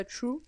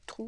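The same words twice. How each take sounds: First: "true" said the English way; English pronunciation. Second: "true" said the French way, like "trou"; Frenchify "true" into "trou"; alternative French-style pronunciation. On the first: (« true » prononcé à l'anglaise) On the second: (« true » prononcé à la française) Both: Shown as a demonstration. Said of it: "vous prononcez comme vous voulez".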